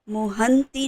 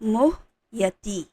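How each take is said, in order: First: The middle has an 'n' sound before 't'. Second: The middle has a 'y' sound and no 'n'. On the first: The speaker calls it wrong. "मोहंती नहीं है। न बीच में नहीं है।" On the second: The speaker calls it right. "क्या था वो?"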